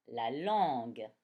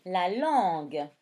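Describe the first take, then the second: First: La langue lower and slow; 「la langue」を低くゆっくり; slow dictation. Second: La langue said slowly and loudly; 「La langue」をゆっくり大きく; slow, loud dictation. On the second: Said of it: "La guitare". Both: Shown as a demonstration.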